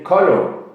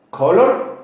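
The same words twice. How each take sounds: First: "color" with the final r dropped, British style; British colour. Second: "color" with a hard r at the end, American style. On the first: Teacher demonstrating the British pronunciation of colour to students, r dropped. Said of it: "in the British people say color". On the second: Teacher demonstrating the American pronunciation of color to students, r sounded. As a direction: say "color" the American way, ending on a clear r. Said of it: "words that are spelling different as like". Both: Shown as a demonstration.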